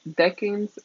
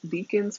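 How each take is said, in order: First: The word is said like 'decans'. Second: The word is said like 'deacons'. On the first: The speaker calls it right. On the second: The speaker calls it wrong.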